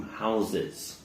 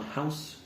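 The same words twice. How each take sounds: First: HOUSES as "HOW-ziz", softly; soft HOUSES with buzzing middle z; plural Z sound. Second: HOUSE ending "s", softly; soft HOUSE with hissed ending; singular S sound. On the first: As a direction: model HOUSES with voiced z. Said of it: "changes to a Z". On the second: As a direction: model HOUSE as "howss". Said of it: "Hear that nice S sound". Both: Shown as a demonstration.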